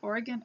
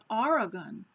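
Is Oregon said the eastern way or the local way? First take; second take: local; eastern. First: Oregon is said in the local western way. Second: Oregon is said in the eastern way. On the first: "they say Oregon out here" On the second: "in other states we call it Oregon"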